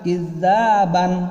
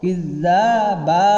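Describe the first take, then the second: First: The word ends with an n sound. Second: The word ends with a lengthened vowel. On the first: The reading continues into the next word. "মিলিয়ে পড়লে" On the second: The reader stops at this word. "অক্ফ করলে, থামলে একালিফ টানতে পারবো"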